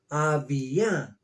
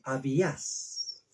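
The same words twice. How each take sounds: First: Abía said slowly with the stress on the first A and no final S; Abía, slow and careful, no S at the end; Hebrew pronunciation. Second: Abías said slowly and softer, with the final S sounded; Abías, slow and quiet, S pronounced; Spanish pronunciation. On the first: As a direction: sound out Abía, leaning on the opening A. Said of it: "Acento en la A". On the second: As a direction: give the Spanish form Abías, S clearly at the end. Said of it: "En español aparece con S". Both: Shown as a demonstration.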